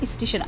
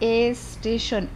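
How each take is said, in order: First: The word starts directly with the s cluster. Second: An e vowel is added before the word.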